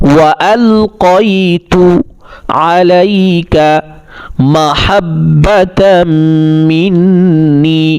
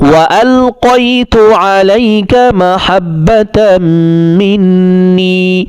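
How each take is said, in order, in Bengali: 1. এটি বিরতি দিয়ে টুকরো টুকরো করে বলা হয়। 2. এটি বিরতি ছাড়া সাবলীলভাবে একসাথে বলা হয়। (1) "ভেঙে ভেঙে বললাম আপনাদের বোঝার সুবিধার জন্য" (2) "একত্রে বলছি"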